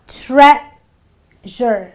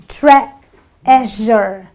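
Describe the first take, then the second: First: The first vowel is a short eh sound. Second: The first vowel is a short eh sound.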